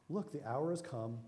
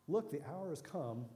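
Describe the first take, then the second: The two takes are said the same way.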